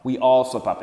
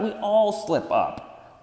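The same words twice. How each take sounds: First: Said in the usual way. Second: "all" raised higher and stretched slow; drawn-out reassurance. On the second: Shown as a demonstration. Coach reassures listeners, "all" drawn out slowly.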